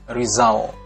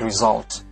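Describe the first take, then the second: First: The final t is held without release. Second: The final t is clearly released. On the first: The speaker calls it wrong. "bukan result" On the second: The speaker calls it right. "tapi result"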